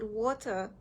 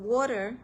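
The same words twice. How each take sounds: First: It is said in a non-American accent. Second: It is said in an American accent.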